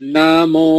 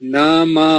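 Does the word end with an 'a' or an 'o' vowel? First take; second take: o; a. First: The word ends with an 'o' vowel. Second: The word ends with an 'a' vowel. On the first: "এটা হচ্ছে ও" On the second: "আর এটা হচ্ছে আ"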